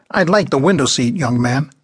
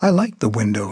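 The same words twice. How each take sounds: First: Grating demanding tone. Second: Put-on meek young man. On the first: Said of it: "The grating, demanding tone of her voice". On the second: Young man timidly holding his seat against an old woman. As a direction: say it without conviction. Darwin answers meekly. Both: A narrator's reading.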